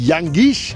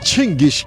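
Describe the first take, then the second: First: The name begins with a 'yang' sound. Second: The name begins with a 'chin' sound. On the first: This is how the English say it. "ইংলিশরা বলে ইয়াঙ্গিশ" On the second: This is how Mongolians say it. "মঙ্গোলিয়ানরা বলে চিঙ্গিস"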